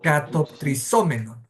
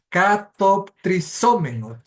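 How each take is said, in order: First: "Katoptrisomenot" said at an easier pace with the stress on the O and a falling end; Greek word said smoothly. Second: "katoptrisomenot" sounded out slowly, syllable by syllable, stress on the O; Greek word spelled out slowly. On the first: Teacher repeats "Katoptrisomenot" smoothly after the slow version, stress on the O. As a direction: say "Katoptrisomenot" in one smooth run, leaning on the O. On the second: Teacher sounding out "katoptrisomenot" for the class, slow and careful. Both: Shown as a demonstration. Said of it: "el acento va en la O".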